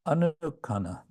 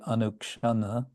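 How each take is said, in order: First: The middle has a plain 'k' sound. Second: The middle has a 'ksh' sound. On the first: "there's the um, Bengali pronunciation" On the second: "The Sanskrit would be anukshana"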